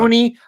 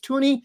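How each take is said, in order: First: The name begins with a 'th' sound. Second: The name begins with a plain 't' sound. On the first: The speaker calls it wrong. "I thought it was Thuney" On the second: The speaker calls it right. "I believe is the correct pronunciation"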